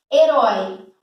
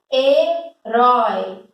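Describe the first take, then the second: First: Said in the usual way. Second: "Herói" drawn out slowly, syllable by syllable; slow down and split "Herói" so each syllable is heard; "Herói" said very slowly, with every syllable stretched. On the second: Shown as a demonstration. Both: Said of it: "Eu divido sílaba".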